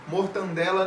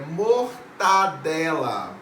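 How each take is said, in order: First: An extra n sound comes before the d. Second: No n sound comes before the d. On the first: The speaker calls it wrong. "Mortandela não existe" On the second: The speaker calls it right. "é mortadela"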